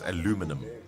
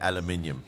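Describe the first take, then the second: First: It is said with four syllables, American style. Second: It is said with five syllables, British style. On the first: The speaker calls it wrong. "only the Americans say that it's aluminum" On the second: The speaker calls it right. "real people say aluminium"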